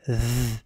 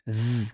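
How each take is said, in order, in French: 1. C'est un son proche de th, langue entre les dents. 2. C'est un son proche de th, langue entre les dents.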